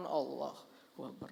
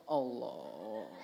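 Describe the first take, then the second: First: Imam's call. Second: Much lower, strained grunt of a flexing man; flexing gym-bro grunt; straining show-off. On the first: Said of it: "Imamnya di depan". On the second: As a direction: push the word out like lifting a weight. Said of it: "Wah, pamer otot". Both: Retold or imitated.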